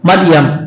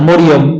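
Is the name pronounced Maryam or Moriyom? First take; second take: Maryam; Moriyom. First: The name is said as Maryam, with long a vowels. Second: The name is said as Moriyom, with o vowels. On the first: This is the original Arabic form of the name. The speaker calls it right. "এটা আরবি নাম, কোরআন শরীফের শব্দ, এটা বিকৃত করা যাবে না।" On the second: This is the Bengali form of the name. The speaker calls it wrong. "মরিয়ম বলা যাবে না"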